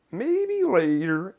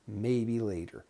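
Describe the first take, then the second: First: High, slow sing-song with drawn-out words. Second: Said in the usual way. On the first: Retold or imitated. Client putting off a request, imitated sing-song voice. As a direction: chant it high and loud, stretching each word. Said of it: "in a sing-song voice". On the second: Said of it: "the intonation was so different".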